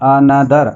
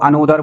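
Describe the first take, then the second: First: The middle vowel sounds like 'uh'. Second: The middle vowel sounds like 'o'. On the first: The speaker calls it right. "क्या बोलना है? अनदर" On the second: The speaker calls it wrong. "इसको अनोदर बोल देते हैं लोग, ये अनोदर नहीं है"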